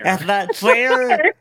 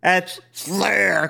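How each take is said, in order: First: It is said in a plain, normal voice. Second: It is said in a deep, guttural growl.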